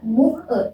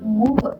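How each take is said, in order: First: The two words are said separately. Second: The final consonant links into the next vowel. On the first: The speaker calls it wrong. "Jadi nggak usah baca" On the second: The speaker calls it right.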